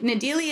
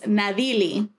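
First: The name is said with a hard English D. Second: The name is said with a light D. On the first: This is the adapted form used in America. The speaker calls it wrong. "Nadyli is the Americanized pronunciation of it" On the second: This is the name's real form. The speaker calls it right. "That's what it's supposed to be like. It's like a light D"

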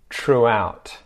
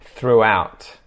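First: The word begins with a t sound. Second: The word begins with a th sound. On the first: "and then a T sound" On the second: "pronounce with a TH"

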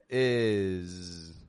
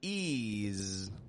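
First: The vowel sits between high and low. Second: The vowel is high and tense, like 'ease'. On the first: The speaker calls it right. "But it's right in the middle" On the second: The speaker calls it wrong. "our tongue is not making pressure on the top teeth, of course. We're not giving it an ease"

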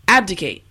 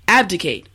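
Both takes have the same delivery.

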